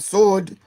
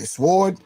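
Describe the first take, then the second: First: The W sound is left silent in the word. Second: The W sound is pronounced in the word. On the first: "some say the W is violent" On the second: "Some say sword"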